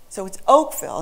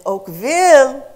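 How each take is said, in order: First: Said in the usual way. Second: OAKVILLE with the second syllable long, high and loud; slow oak-VEEL for OAKVILLE, stretched at the end; French-style stress. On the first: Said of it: "that's the way stress works". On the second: Shown as a demonstration. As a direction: swing the weight onto VILLE in "Oakville", French style. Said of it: "that would be French".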